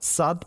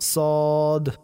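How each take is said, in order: First: The letter is sounded thin with a light vowel. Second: The letter is sounded heavy with a full vowel. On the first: The speaker calls it wrong. "সাদ পড়ব না" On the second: The speaker calls it right. "বরং পড়ব সদ"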